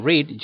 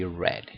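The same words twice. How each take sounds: First: "read" said "reed", long ee; present read. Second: "read" said "red", short e; "read" rhyming with bed; past read. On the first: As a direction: say "read" with an ee sound. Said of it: "instead of saying read". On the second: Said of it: "you say read". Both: Shown as a demonstration.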